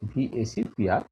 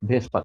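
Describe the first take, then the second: First: Each letter of the acronym is said separately. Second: The acronym is said as one two-syllable word. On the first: "ভিএসপিআর হওয়ার কথা" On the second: "উচ্চারণ করার সময় just ভেসপার বলা হচ্ছে"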